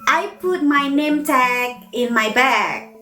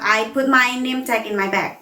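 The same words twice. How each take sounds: First: The A vowels are long and drawn out. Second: The A vowels are ordinary and short. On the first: The speaker calls it right. "like long O and also long A" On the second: The speaker calls it wrong.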